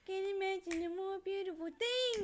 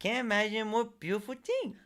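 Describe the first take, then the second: First: Dreamy character voice. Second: High, dreamy quoted line; dreamy character voice. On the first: Quoting favorite line in voice. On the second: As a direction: gush it like a cartoon character. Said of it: "That's my favorite line". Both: Retold or imitated.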